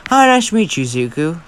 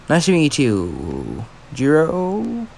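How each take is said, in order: First: Polite greeting. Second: Calm reply. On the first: Jiro forcing a polite greeting. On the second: Izuku answering Jiro calmly. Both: Acted.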